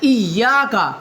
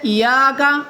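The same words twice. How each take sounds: First: The y sound is held long and doubled. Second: The y sound is short and single. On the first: "उसके ऊपर तशदीद थी" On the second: "यूं पढ़ता है बगैर तशदीद के"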